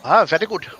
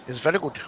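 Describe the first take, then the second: First: Imitating an Indian accent; light Indian accent impression. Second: Said in the usual way. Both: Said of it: "talking in an Indian accent".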